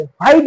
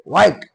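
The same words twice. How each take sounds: First: "व्हाईट" with a breath of H at the front; wrong pronunciation. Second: "व्हाईट" said as wait with a long I, "wite"; silent H. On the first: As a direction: open "व्हाईट" on a sounded H. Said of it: "is wrong". ("व्हाईट", ह उच्चारून) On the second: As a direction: start "व्हाईट" on a clean W, no H. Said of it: "no, no, व्हाईट". ("व्हाईट", ह न उच्चारता) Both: Shown as a demonstration.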